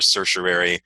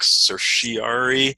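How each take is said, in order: First: The R in the middle is sounded. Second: The R in the middle is dropped. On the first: The speaker calls it right. "I favor certiorari" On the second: The speaker calls it wrong. "that ignores like the R in the middle of the word"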